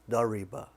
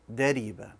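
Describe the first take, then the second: First: The r is a heavy, full-mouthed sound. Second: The r is a light, thin tap. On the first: The speaker calls it wrong. "don't make it bold" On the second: The speaker calls it right. "when it has a kesra, it's going to be light"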